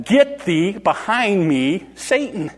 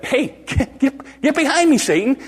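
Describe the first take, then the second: First: Very slow, weighted scriptural command; solemn rebuke. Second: High, stammered informal command; colloquial rebuke. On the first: Jesus turns away from Peter, slow solemn rebuke. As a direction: space out each phrase, ending higher on Satan. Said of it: "He turned away from him and he said". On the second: Jesus to Peter in everyday words, high-pitched rebuke. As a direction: blurt it high, tripping over the start. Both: Retold or imitated.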